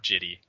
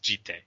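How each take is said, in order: First: The word ends with an 'ee' vowel. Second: The word ends with a 'teh' syllable. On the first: The speaker calls it wrong. "or Jitty" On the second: The speaker calls it right. "It's Jitte"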